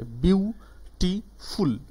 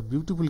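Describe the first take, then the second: First: beautiful very slow in three separate beats, bew, ti, ful; broken into syllables. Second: Said in the usual way. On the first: Shown as a demonstration. Teacher showing students three syllables, broken apart slowly. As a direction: split beautiful into bew - ti - ful, pitched higher with gaps between. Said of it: "ওটা কিন্তু trisyllabic word". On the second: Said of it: "দেখো beautiful কীভাবে".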